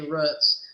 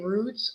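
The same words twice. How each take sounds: First: The word is pronounced differently from its spelling. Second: The word is pronounced the way it is spelled. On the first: This is the speaker's own regional way of saying it. The speaker calls it wrong. "I'm saying it wrong" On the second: This is the other person's regional way of saying it. The speaker calls it right. "you're saying it how it's spelled"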